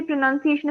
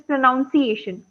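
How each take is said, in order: First: Said in the usual way. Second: "pronunciation" said as "pro-NOUN-ciation"; mispronounced "pronunciation". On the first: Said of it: "Sometimes students say pronunciation is pronunciation". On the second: Shown as a demonstration. Trainer showing students' mistake, "pronunciation" said as "pronounciation". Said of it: "That is wrong".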